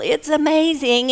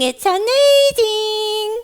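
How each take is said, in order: First: Said in the usual way. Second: High, drawn-out puppet squeal; squeaky, gushing little echo; excited puppet. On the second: Acted. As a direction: stretch it out in childlike wonder, high up. Puppet echoes the host excitedly.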